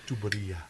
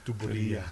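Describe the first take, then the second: First: The word is said with four syllables. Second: The word is said with four syllables.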